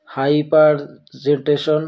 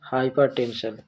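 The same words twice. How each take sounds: First: হাইপারজেন্টেশন with a garbled "jen-te" in place of "ten"; হাইপারজেন্টেশন drawn out, tension misread as "jenteshon"; mispronounced. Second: হাইপারটেনশন with a clear "ten-shon" ending; হাইপারটেনশন softly corrected, "ten" not "jen"; corrected pronunciation. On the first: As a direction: stumble slowly through হাইপারজেন্টেশন, saying "jenteshon" at the end. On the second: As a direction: say হাইপারটেনশন as hai-par-ten-shon, slowly and softer. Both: Real, not acted. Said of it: "কি উচ্চারণ করছি".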